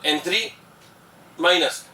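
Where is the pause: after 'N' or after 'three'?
after three. A short pause comes after 'three'. It names the azide ion. "पहले N three बोलो एक साथ, फिर थोड़ा रुको, फिर बोलो माइनस"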